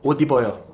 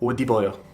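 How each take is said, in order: First: The middle consonant is a D sound. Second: The middle consonant is a D sound.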